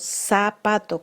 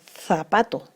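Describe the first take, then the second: First: It begins with an s sound. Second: It begins with a th sound. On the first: "decimos zapato con el sonido S" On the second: "es interdental, el sonido sería zapato"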